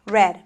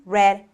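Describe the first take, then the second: No difference in how they are said.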